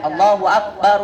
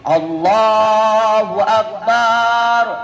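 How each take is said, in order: First: The vowel in the final syllable is short. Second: The vowel in the final syllable is drawn out. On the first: God is the greatest. "kita sering dengar suara azan" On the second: The meaning shifts toward a big drum. "baknya dipanjangin"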